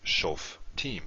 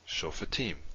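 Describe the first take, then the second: First: No vowel follows the f, two syllables. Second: A short vowel follows the f, three syllables. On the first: The speaker calls it wrong. "We would not make this silent" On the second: The speaker calls it right. "it's vocal. So this is vocal, so we pronounce it"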